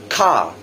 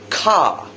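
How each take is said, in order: First: A British accent with a silent R. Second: The same.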